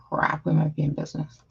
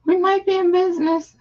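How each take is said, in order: First: Said in the usual way. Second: Excited relief. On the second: Real, not acted. Stream finally loading.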